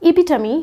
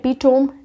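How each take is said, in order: First: The word ends with a 'tuh-mee' sound. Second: The word ends with a 'tome' sound. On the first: The speaker calls it right. "आप इसको बोलेंगे इपिटमी" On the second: The speaker calls it wrong. "आप इसको एपिटोम नहीं बोलेंगे"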